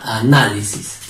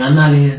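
First: "Análisis" split before a strong NÁ; stress on -ná-. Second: Said in the usual way. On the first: Shown as a demonstration. Teacher answers how it sounds, stressing -ná- in "Análisis". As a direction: say A, then lean on NÁ in "Análisis". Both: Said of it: "¿Cómo sería?".

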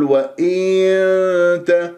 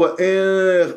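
First: وإن with the i dragged to een; overstretched kasra, wrong. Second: وإن with the i cut short and loose; snatched kasra, wrong. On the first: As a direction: lengthen the vowel in وإن before t. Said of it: "لا أمط". (وإن بمط الكسرة) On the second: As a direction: clip the vowel in وإن. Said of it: "اختلاس". (وإن باختلاس الكسرة) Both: Shown as a demonstration.

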